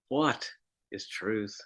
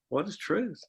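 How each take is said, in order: First: It is said in a despairing, hopeless tone. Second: It is said in a dismissive, brushing-off tone. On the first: Finding the truth seems hopeless. "Or maybe despairingly" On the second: The question of truth is waved aside. "Or dismissively"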